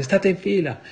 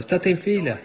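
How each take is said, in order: First: High, loud cry to keep in line; a preacher's shouted command to the marching girls; shouting. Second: High, loud shouted command; shouting. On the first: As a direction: yell the order out sharply. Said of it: "e gridai". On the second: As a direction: cry it out as if waking from the vision. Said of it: "stavo in piedi nella stanza gridando". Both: Retold or imitated.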